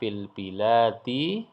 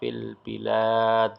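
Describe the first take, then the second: First: The phrase ends with a short i vowel. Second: The phrase ends on a bare d consonant. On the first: This is the full form when reading on. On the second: This is the form used when stopping. "kalau wakaf dibaca"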